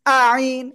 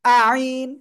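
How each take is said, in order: No difference in how they are said.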